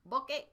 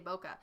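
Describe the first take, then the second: First: The word is said in a Japanese-style way. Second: The word is said in an English-style way. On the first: "it's actually pronounced like bokeh" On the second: "I have a tendency to say bokeh"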